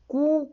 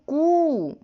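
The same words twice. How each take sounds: First: The vowel is held very briefly. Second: The vowel is drawn out at great length. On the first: "जैसे कू यानी ह्रस्व स्वर" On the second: "क्रमशः है ह्रस्व दीर्घ और प्लुत"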